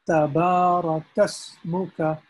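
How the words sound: The two words run together smoothly. The speaker calls it right. "the correct way is to pronounce them together"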